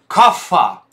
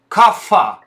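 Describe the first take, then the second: First: The middle consonant is an f sound. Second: The same.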